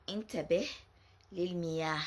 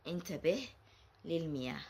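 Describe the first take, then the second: No difference in how they are said.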